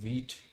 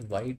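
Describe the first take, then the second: First: The vowel is 'ee', rhyming with beat. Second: The vowel is 'eye', rhyming with bite. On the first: "people call it wheat"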